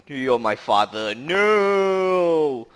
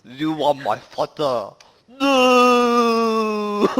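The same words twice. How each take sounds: First: Quoted Star Wars line with a cried-out no; movie villain quote. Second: Put-on slow, heavy Chinese accent with a high, loud wail on No; imitating the friend's Chinese-accented Star Wars line, ending in a loud, higher No; thick Chinese accent. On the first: Retold or imitated. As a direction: deliver the famous line, then cry out the no. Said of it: "the infamous scene from Star Wars Episode Five". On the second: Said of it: "reciting that line in a very thick Chinese accent".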